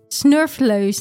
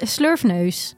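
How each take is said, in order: First: The word starts with sn, with l later. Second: The word starts with sl, with n later. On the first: The speaker calls it wrong. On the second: The speaker calls it right.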